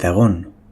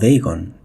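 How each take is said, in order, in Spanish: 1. El nombre se pronuncia con sonidos españoles. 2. El nombre se pronuncia con sonidos ingleses.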